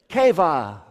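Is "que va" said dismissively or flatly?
flatly. It is said flatly, without feeling. The speaker calls it wrong. "But they don't say it like that"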